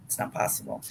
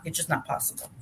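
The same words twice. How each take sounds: First: Whispered under her breath. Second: Said in the usual way. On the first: Real, not acted. Repeating to herself that it can't be done, whispered. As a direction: drop to a bare whisper, voice gone.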